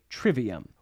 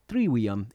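First: The middle consonant is pronounced as a V. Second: The middle consonant is pronounced as a W.

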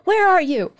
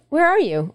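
First: It is said yelling, sounding angry. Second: It is said calmly, without anger.

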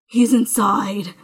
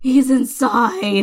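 First: It is said with moderate dramatic intensity. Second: It is said with even more overacted intensity.

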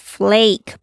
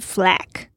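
First: The vowel a is long. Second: The vowel a is short. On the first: The speaker calls it right. "这个a 是长音的a，所以是flake" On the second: The speaker calls it wrong. "不是flake"

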